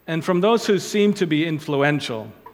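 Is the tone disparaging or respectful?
respectful. It is said in a respectful, kind tone. The influential people are not being mocked. The speaker calls it right. "that's so much nicer"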